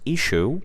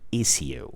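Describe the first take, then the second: First: It is said in the usual, common pronunciation. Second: It is said in a regional British pronunciation. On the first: "usually it's pronounced issue" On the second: "in some British regions they pronounce it issue"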